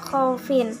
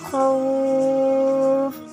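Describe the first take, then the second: First: The word ends with a sounded final syllable. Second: The word ends on a consonant, syllable dropped. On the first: This is the word as written, read without stopping. "Tulisannya khaufin" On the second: The reader stops on this word. "karena wakaf maka harus dibaca khauf"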